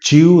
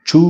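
First: The word has a y-glide before the vowel. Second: The word has no y-glide before the vowel. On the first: The speaker calls it wrong. "ച്യൂ എന്നല്ല" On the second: The speaker calls it right. "ചൂ എന്നാണ് pronunciation"

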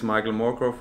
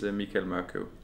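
First: The name is pronounced with English sounds. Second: The name is pronounced with Danish sounds. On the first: "my English name is Michael Morkøv" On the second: "in Danish is Michael Morkøv"

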